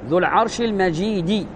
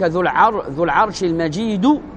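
First: The last word ends with an i vowel. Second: The last word ends with a u vowel. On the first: The glory describes the Throne. "الذي نريده الكسر ذو العرش المجيد على قراءة الكسر" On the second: The glory describes the Lord. "فعلى قولك ذو العرش المجيد هذا المجيد وصف للرب"

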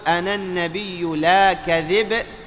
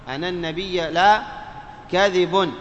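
First: The final b is stopped with no vowel. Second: The final b carries a u-vowel and n ending. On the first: The line scans as rajaz verse. "أن تقف بالسكون على الباء" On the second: The line is not verse. "ضم الباء بتنوين الباء مرفوعة"

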